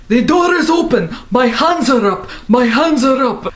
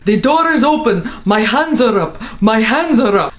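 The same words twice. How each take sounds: First: Police raid shout. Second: Hammed-up raid yell, higher; police raid shout. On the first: Retold or imitated. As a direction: bark it like an agent storming in. Raid heard in her dream, replayed. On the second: FBI agents heard during the dream raid, mock yelled. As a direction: call it out like an agent breaking in.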